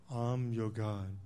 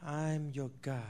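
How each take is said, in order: First: Much lower, slow robotic toy voice; deep, slow mechanical toy voice; talking toy voice. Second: Said in the usual way. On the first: Retold or imitated. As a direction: sound like a programmed toy announcing itself. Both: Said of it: "pre-programmed that say".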